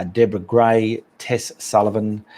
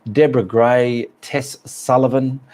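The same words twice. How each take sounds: The two takes are said the same way.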